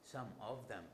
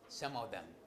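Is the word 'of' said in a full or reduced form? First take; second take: full; reduced. First: The word 'of' is stressed and fully pronounced. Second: The word 'of' is unstressed and reduced. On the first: This is how a non-native learner says it. "if I am a learner, I say some of them" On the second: This is how a native speaker says it. "if I am a native, I would say some of them"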